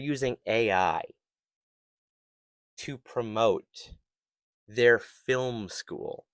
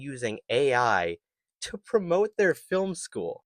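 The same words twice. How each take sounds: First: The phrase is spoken slowly and deliberately. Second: The phrase is spoken at a normal pace.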